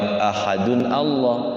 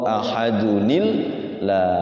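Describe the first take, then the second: First: The words are said without an inserted 'ni' sound. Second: A linking 'ni' sound joins the two words.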